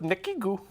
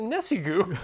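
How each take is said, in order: First: The middle consonant is a k sound. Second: The middle consonant is an s sound. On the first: This is how the speaker has always said it. "I've always gone with Nekigu" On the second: This is how the other person says it. "So you're pronouncing it Nessigu"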